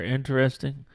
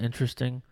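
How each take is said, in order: First: Every syllable of the word is sounded out. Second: The word is said with fewer, reduced syllables. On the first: The speaker calls it wrong. "I just sounded out a little more" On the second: The speaker calls it right. "I guess you're supposed to say it interesting"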